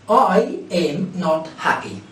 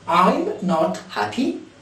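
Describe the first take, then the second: First: 'I am' is said as two full words. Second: 'I am' is shortened into one syllable. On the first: "this is the full form of verb to be in negative" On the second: "the contracted form"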